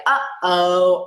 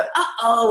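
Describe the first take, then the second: First: A loud, playful uh-oh; mock dismay for a toddler; uh-oh exclamation. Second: A slightly higher, playful uh-oh; mock surprise at a knocked-over cup; uh-oh exclamation. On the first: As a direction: say it like something just spilled. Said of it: "So things like". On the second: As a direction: react to a spill for a toddler. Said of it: "when something spills or gets knocked over". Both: Shown as a demonstration.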